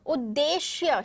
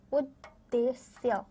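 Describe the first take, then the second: First: उद्देश्य said at normal pace with a clear श in the last syllable; correct pronunciation. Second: उद्देश्य read slowly with a hissing स्य at the end; wrong spelling read out. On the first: Teacher gives the class the corrected word, clearly. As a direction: say उद्देश्य crisply with श, not स. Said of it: "श होता है". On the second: Teacher reads the wrong spelling aloud to her class, slow and deliberate. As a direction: drag out उद्देश्य and end on a sharp स्य sound. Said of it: "स्य लिखा है". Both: Shown as a demonstration.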